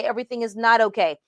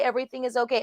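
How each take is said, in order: First: "not" leaned on, pace picks up; stress on not. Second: Said in the usual way. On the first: Shown as a demonstration. Passive-aggressive mentor finally admitting it, stress on "not". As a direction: land hard on "not" in "Everything is not okay". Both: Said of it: "Passive-aggressive is being".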